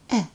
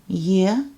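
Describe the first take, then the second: First: The vowel begins without any y glide. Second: The vowel begins with a y glide. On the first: It comes after a consonant. "as E in let" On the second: It comes at the start of a word or after a vowel. "as Y with E glide, like in yet"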